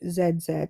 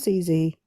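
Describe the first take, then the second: First: The letters are said the British way, zed. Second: The letters are said the American way, zee.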